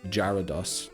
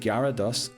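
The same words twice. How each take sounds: First: The word begins with a J sound. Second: The word begins with a hard G sound.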